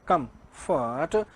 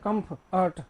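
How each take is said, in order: First: The stress is on the first syllable. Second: The stress is on the second syllable. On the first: The speaker calls it right. "अरे शुरू में देना पड़ेगा आपको" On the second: The speaker calls it wrong. "अब इसको ऐसे नहीं बोलते कम फट ना"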